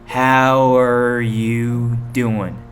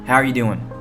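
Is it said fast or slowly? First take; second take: slowly; fast. First: It is said slowly. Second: It is said fast.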